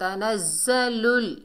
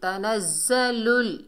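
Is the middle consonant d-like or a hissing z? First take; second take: hissing z; hissing z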